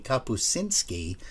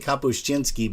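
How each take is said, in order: First: The middle has no 'ch' sound. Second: The middle has a 'ch' sound. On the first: The speaker calls it right. "it's actually Kapuscinski, C I N. There is no ch in there" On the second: The speaker calls it wrong. "we say Kapuscinski"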